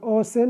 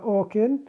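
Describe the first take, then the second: First: The middle consonant is an s sound. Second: The middle consonant is a k sound. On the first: "ما نقول أوسن" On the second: "ولا أوكن"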